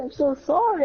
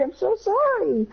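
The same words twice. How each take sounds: First: Higher, anxious sorry; pleading apology. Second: Even higher, slow, squeaky sorry; desperate apology. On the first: Boy apologises to friend after peeing in his eye, high anxious plea. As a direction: apologise in a panic. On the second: Boy begs friend's forgiveness, very high slow desperate plea. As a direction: beg forgiveness in full panic. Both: Retold or imitated. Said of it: "I said".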